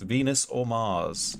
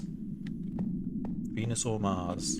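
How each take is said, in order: First: Said in the usual way. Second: Drawn-out soft repeat. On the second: Shown as a demonstration. Asking viewers to vote, repeated.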